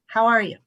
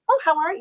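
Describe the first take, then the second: First: It is said in a serious, earnest tone. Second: It is said in a breezy social tone.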